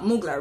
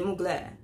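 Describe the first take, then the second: First: The name is said in a plain style. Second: The name is said in a fancy style. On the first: This is the speaker's own natural way. "it's just more natural for me to say it that way" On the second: This is how sophisticated people say it. "The fancy people say Mugler"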